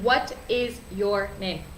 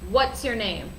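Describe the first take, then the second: First: 'What is' is said as two full words. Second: 'What is' is contracted to one syllable.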